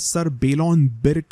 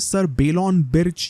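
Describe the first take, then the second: First: The surname ends with a 'k' sound. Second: The surname ends with a 'ch' sound. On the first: "इन्हें अभी हम बिर्क ही कहते हैं" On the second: "ये sir बेलॉन बिर्च या फिर सर बेलॉन बिर्क इनका प्रोनाउंसिएशन है, I am not so sure"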